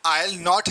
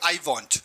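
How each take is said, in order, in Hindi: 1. 'I will' एक ही syllable में मिल जाता है। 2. 'Will not' एक ही सिलेबल में मिल जाता है। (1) "आई विल या आई सेल को आइल बोलते हैं" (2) "बिल नॉट को अगर हम जोड़ते हैं"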